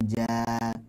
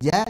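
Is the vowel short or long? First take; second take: long; short. First: The vowel is long, held for two beats. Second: The vowel is short, one beat. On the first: "Dua harokat" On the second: "yang tadinya pendek"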